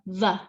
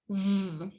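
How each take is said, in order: First: The consonant ends with an added uh vowel. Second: The consonant is clipped with no added vowel. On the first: The speaker calls it wrong. "or V represents the v sound" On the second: The speaker calls it right. "It's just b, v"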